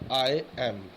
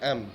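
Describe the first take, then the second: First: Two separate words are said in full. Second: The two words are merged into one syllable.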